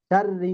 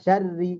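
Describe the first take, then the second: First: শাররি said the way to avoid; শাররি as a mistaken example; wrong way. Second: শাররি with a thin r and doubled rr; শাররি said carefully and correctly. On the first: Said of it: "চাও এরকম না". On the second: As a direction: model the right শাররি for the student. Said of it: "শাররি, একটু খেয়াল করেন". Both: Shown as a demonstration.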